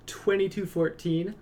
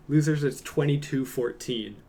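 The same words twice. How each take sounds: First: "Twenty-two fourteen?" jumps much higher on a rising question; incredulous, what does that even mean; confused repeat, rising high at the end; baffled echo. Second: Said in the usual way. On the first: Real, not acted.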